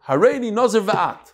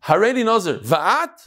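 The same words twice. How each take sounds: First: It is said as an exclamation. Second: It is said as a question. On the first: He declares that both of them will join. "Both of us" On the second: He asks whether she also wants to join. "Do you want to?"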